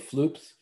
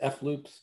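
First: The F is blended into one syllable. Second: The F is said as a separate letter. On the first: "Is it F-loops or floops?" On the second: "Is it F-loops or floops?"

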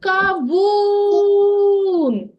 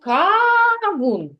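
First: The stress is on the second syllable. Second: The stress is on the first syllable. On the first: The speaker calls it right. "На другий склад" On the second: The speaker calls it wrong. "А що ми звемо кавун? Ні"

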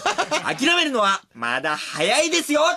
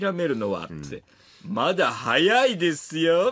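First: The voice is bright, lively and pleasant. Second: The voice is heavy, slow and brooding. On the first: "結構いい声で、なんか、なんだろう、元気な青年実業家みたいな声で" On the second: "猪木みたいなさ、感じで … じとーっとした言い方"

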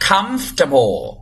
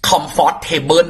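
First: The middle syllable is dropped, starting 'comf'. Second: The middle syllable is pronounced fully. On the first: The speaker calls it right. "ไม่จ้าออกเสียงว่าเอาใหม่ออกเสียงว่า" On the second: The speaker calls it wrong. "คำนี้จะออกเสียงกันแบบหลายคนพี่ก็เคยออกคำนั้นแล้วคือเราโดนสอนมาแบบนั้นน่ะ"

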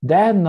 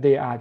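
First: The words are merged into one quick syllable. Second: Both words are said in full, separately.

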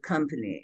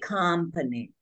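First: The vowels sound standard American. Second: The vowels sound Hungarian-accented.

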